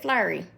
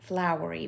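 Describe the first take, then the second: First: It is said in an imitated, changed pronunciation. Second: It is said in the speaker's own plain pronunciation. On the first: This is how someone else pronounced it. The speaker calls it wrong. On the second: This is how the place name is normally said. The speaker calls it right.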